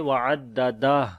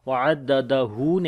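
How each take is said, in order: First: The word stops without the final 'hu' vowel. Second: The word ends with a full 'hu' syllable. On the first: The speaker calls it right. "बल्कि पढ़ेंगे वाददा" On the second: The speaker calls it wrong. "वाददहू नहीं पढ़ेंगे"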